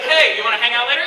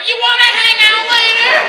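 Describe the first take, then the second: First: Said in the usual way. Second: High, loud, slow mimicry; exaggerated taunting singsong copy; mocking echo. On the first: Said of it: "I'll talk and I'll hear my voice". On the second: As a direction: parrot it back to make fun of the caller. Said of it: "third person on the line making fun".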